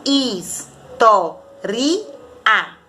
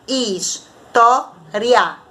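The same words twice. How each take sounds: First: "ri" and "a" split apart, "a" left on its own; four separate syllables. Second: "ri, a" glided into one syllable after "is" and "to"; three separate syllables. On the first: Teacher showing pupils the student's division, four separate syllables. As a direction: say "Is, to, ri, a" as four beats, pausing before each. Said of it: "separada em quatro sílabas". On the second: Teacher showing pupils the professor's division, three separate syllables. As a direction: say "is, to, ri, a" as three beats, with "ri, a" joined. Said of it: "defende que ela é trissílaba".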